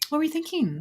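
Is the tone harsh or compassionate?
compassionate. It is asked in a gentle, compassionate tone.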